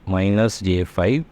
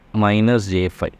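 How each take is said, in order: Both takes have the same delivery.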